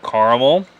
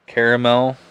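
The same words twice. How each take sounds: First: Caramel said as CAR-mul; two pronunciations. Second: Caramel said as CARE-uh-mel; alternate pronunciation. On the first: Reviewer naming the flavour, caramel pronounced CAR-muhl. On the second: Reviewer offering the other pronunciation, caramel as CARE-uh-mel. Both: Real, not acted. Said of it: "however you wanna say it".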